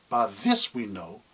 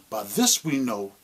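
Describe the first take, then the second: Both takes have the same delivery.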